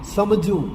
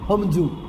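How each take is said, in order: First: The word begins with an s sound. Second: The word begins with an h sound. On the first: This is the standard pronunciation. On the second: This is the dialect pronunciation.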